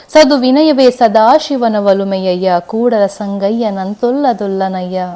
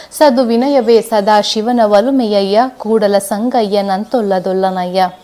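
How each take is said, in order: No difference in how they are said.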